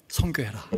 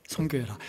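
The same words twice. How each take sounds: First: Urgent unvoiced whisper; hushed charge to the congregation; whispered exhortation. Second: Said in the usual way. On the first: Shown as a demonstration. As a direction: whisper the command to go on mission. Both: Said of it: "챌린지를 해요".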